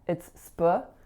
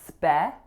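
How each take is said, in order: First: The syllable has a reduced schwa vowel. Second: The syllable has a full, clear vowel. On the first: The speaker calls it right. "You have to catch that schwa in that first syllable" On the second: The speaker calls it wrong. "so it's not spe"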